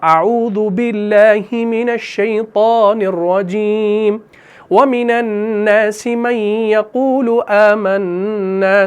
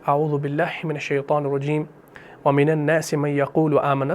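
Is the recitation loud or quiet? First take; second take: loud; quiet. First: It is recited in a loud voice. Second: It is recited in a quiet voice. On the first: "अगर आप ऊंची आवाज में कुरान को पढ़ रहे हैं ... तो इस तरीके से पढ़ेंगे" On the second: "अगर आप धीमी आवाज में पढ़ रहे हैं"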